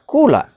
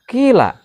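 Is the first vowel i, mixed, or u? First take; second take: u; i. First: The first vowel is a rounded u sound. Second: The first vowel is a front i sound. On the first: "bisa dibaca kula" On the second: "bisa dibaca kila"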